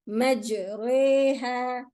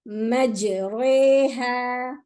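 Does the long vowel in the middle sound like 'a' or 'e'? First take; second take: e; e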